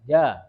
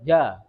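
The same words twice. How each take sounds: The two takes are said the same way.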